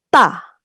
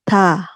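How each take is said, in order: First: The consonant is tense, short and cut off. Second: The consonant is relaxed, with air released gently.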